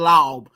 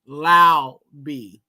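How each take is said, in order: First: The name is said as one syllable. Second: The name is split into two syllables. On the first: The speaker calls it wrong. "Don't be saying Laub" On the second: The speaker calls it right. "Split that up"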